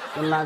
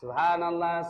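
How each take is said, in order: First: It is said fast and slurred. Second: It is said slowly and clearly.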